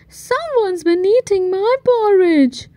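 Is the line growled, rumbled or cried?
rumbled. It is rumbled in Mommy Bear's voice.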